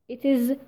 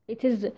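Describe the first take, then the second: No difference in how they are said.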